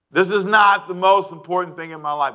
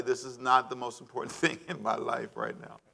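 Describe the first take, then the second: First: Firm, declare that "not" matters; stress on not. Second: Soft, amused aside with a chuckle; laughing. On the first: Preacher firmly insisting "not" to the congregation. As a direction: punch "not" with a falling tune. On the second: Preacher laughing softly at how hard it is to say. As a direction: chuckle through the line, quieter. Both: Shown as a demonstration.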